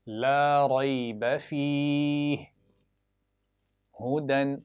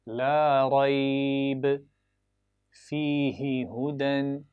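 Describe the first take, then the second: First: The speaker pauses for breath after fihi. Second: The speaker pauses for breath after rayba. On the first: "ला रैब फीह पर मैंने पहले नुक्तों तीन नुक्तों पर मिलाया और वक्फ किया, सांस तोड़ा" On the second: "यहाँ पर वक्फ कर लेंगे पहले तीन नुक्तों पर, सांस तोड़ेंगे"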